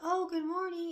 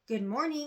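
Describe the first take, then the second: First: The greeting sounds casual and easygoing. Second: The greeting sounds demanding, expecting a reply.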